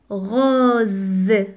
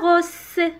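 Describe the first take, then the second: First: The middle consonant is a buzzing z sound. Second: The middle consonant is a hissing s sound. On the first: The speaker calls it right. "On dit rose. Parce que S se trouve entre deux voyelles" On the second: The speaker calls it wrong. "On ne dit pas rose. Non"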